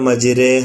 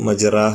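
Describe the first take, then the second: First: The vowel after r is tilted toward e. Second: The vowel after r is a plain open a. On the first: The speaker calls it right. "മജിരേഹ എന്നാണ് ഓതേണ്ടത്" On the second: The speaker calls it wrong. "മജിറാഹ എന്നല്ല"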